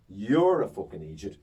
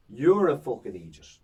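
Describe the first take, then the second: First: Repeated stage insult. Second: Louder, punched insult at a heckler; mock stage insult. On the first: Retold or imitated. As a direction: drive the insult home a second time. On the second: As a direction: land the insult hard on the heckler. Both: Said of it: "and I go".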